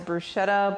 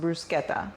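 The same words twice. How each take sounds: First: The word is said the common English way. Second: The word is said the Italian way. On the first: The speaker calls it wrong. "Typically, we pronounce it as bruschetta, but that's not the right way to say it" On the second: The speaker calls it right. "In Italian, it's actually pronounced bruschetta"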